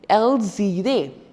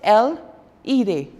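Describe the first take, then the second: First: The words are joined by a z sound. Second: The words are said apart with no z link. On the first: The speaker calls it right. "You have to pronounce it together, which is known as liaison" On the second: The speaker calls it wrong. "You can't pronounce it as L, ire. You can't"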